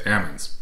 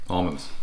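First: ALMONDS with A as in apple, L silent; dad's pronunciation. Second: ALMONDS with an "ah" and an L; standard pronunciation. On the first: Retold or imitated. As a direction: say "Almonds" as "AM-unds". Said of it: "hearing my dad say". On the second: Shown as a demonstration. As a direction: say "Almonds" as "AHL-munds". Corrects dad's way of saying it.

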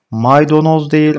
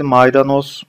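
First: "Maydanoz" said as "maydonoz", louder and higher; wrong form. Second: "maydanoz" with a clear a in the middle; correct form. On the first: Teacher marks the common error for students, raised voice. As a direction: flag "Maydanoz" with an o in the middle as wrong. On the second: Teacher gives the class the right vowel. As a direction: give "maydanoz" with a plain a. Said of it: "A harfiyle yazacaksınız". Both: Shown as a demonstration.

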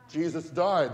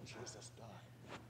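First: Said in the usual way. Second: Sad hushed whisper, almost no voice. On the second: Acted. Disciples tell the stranger, a grieving whisper. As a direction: breathe it out like grieving news.

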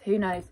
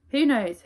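First: Said in the usual way. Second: Higher who knows. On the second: Real, not acted.

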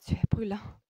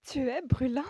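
First: Breathy, amazed stage whisper; in a breath. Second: High, loud, thrilled exclamation; excited. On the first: Woman feeling his feverish forehead, breathed in amazement. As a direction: gasp it out on a breath. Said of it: "dit-elle dans un souffle". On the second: Woman realizing his fever is still up, high and excited. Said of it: "reprit-elle tout excitée". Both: A narrator's reading.

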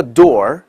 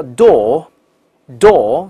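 First: "door" ending in a curled-tongue r; American door. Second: "door" with no r and the tongue not curled, said slowly; British door, slow. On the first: Teacher shows students the American "door" with an r. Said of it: "美国人叫door". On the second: Teacher shows students the British "door" with no r. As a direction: drop the r in "door", British style. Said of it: "英国人叫door". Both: Shown as a demonstration.

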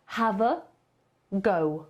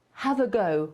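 First: 把 Have a go 连读成一个词; linked as one word. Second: 连读示范 Have a go; linked as one word. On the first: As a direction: Have a go run together as havago, falling on go. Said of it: "połączy w jeden wyraz". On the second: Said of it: "jest taki wyraz". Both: Shown as a demonstration.

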